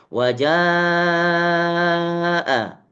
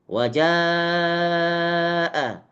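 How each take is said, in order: No difference in how they are said.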